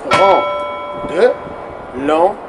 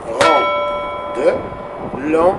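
First: Short beat-by-beat chant; chanted, tap out each syllable on the beat; chanted rhythm syllables. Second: Very slow, each syllable stretched long; drawn-out syllables. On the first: (chanted, syllabes scandées en rythme) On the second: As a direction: stretch every syllable out slowly. (syllabes très lentes et étirées) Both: Shown as a demonstration. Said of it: "Regarde bien ça".

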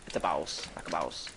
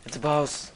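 First: Much lower, jokey voice; deep, low joke echo; mock deep voice. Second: Said in the usual way. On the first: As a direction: drop your voice way down.

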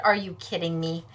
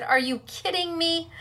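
First: Said in the usual way. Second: Laughing through the words; asking in disbelief, while laughing. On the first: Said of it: "I said". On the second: Real, not acted. Laughing while retelling the exchange.

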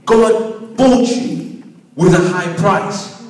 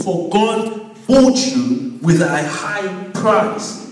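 First: Slow and firmer, "bought" stressed with a rising tune; emphatic repeat. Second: Slow deliberate reading, stress on bought; slow emphasis. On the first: Preacher repeating the verse so the congregation takes it in, slow and firm. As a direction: drive "bought" home with a slow rise. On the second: Preacher stressing the verse to the congregation, slow and deliberate. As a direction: lean on "bought" slowly, word by word. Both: Shown as a demonstration. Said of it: "we're emphasizing on verse twenty".

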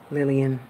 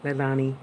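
First: Lillian said by mistake for Leilani; calling her Lillian, the name that slips out; wrong name Lillian. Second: Leilani said as lay-LAH-nee, the right name; fixing the slip with Leilani; corrected name Leilani. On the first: Slipping into the wrong name, Lillian. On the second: Correcting herself to say Leilani. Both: Real, not acted. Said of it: "I always call you Lillian".

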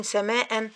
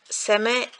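First: "سماء" said as samaa-an; tanween added. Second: Said in the usual way. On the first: Shown as a demonstration. Teacher adding tanween to an example noun, -an ending. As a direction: close "سماء" on a sounded -an. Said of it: "نحط لها تنوين". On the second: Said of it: "كلمة مثلًا".

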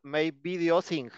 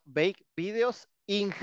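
First: Said in the usual way. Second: Slow quoted mistake. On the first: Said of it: "le puse". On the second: Retold or imitated. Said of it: "ya me ha pasado".

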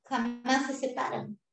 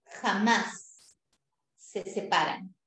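First: Jamás stressed without a break; one firm line, stress on Jamás; Jamás se separan run together. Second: Jamás set apart by a pause and stressed; Jamás, pausa, se separan. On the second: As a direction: land hard on Jamás, then se separan. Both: Shown as a demonstration. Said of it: "Eso tienes que escribir".

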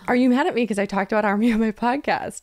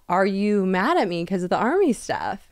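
First: Lightly mock-anxious repeat; slightly higher, more insistent retold question. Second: Said in the usual way. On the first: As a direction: ask again with a touch of mock worry. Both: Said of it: "And I was like".

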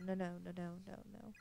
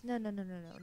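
First: Softer, trailing off into a hush; fading denial. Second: Rising panic, pleading no over and over; panicked denial. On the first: Mayu lost and alone, denial fading to nothing. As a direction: let the nos die away in despair. Mayu panics in strange place. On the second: Mayu lost and alone, frantic panicked pleading. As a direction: refuse it, frantic and scared. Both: Acted.

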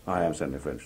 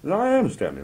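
First: Low-pitched, restrained insistence; firm self-identification. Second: High, loud insistence on being Stanley; emphatic self-identification. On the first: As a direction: state your name firmly, dropped down low. Acted quote, Stanley repeats it lower. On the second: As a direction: insist indignantly, pitched way up. Acted quote, Stanley insists who he is. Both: Acted.

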